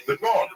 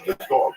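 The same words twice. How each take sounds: First: "The dog." jumps much higher, acted; mock actor line. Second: Said in the usual way. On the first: Shown as a demonstration. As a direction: pitch "The dog." way up like an actor on cue. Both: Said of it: "No, "The dog".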